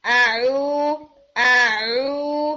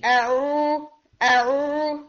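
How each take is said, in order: First: आ ओ pushed smoothly outward from the throat; smooth correct ain. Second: Ain pulled back inward into the throat, choked and strangled; choked wrong ain. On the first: Tajweed teacher showing students the correct smooth ain. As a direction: let the ain flow out forward, not swallowed. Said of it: "बहुत smoothly बाहर निकालना है". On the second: Tajweed teacher showing students the wrong choked ain. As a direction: swallow the आ ओ inward so it sounds smothered. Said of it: "वरना ये बहुत घुटी घुटी". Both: Shown as a demonstration.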